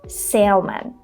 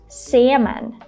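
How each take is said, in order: First: The word is said with an L sound. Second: The word is said with no L sound. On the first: The speaker calls it wrong. "and not salmon" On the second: The speaker calls it right. "it should be pronounced salmon"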